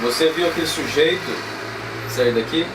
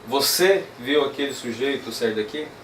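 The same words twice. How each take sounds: First: The word sujeito carries the strongest stress. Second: The word você carries the strongest stress. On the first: "Aqui meio que pega no pé do, do sujeito" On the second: "usar então a tônica aqui no você"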